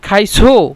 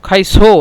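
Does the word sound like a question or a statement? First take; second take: question; question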